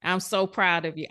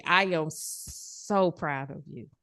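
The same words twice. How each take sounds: First: Said in the usual way. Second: Softer, slower, lower praise; tender. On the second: Real, not acted. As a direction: let the pride settle gently. Coach praising client after sharing.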